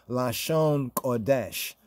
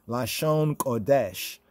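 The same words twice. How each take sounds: Both takes have the same delivery.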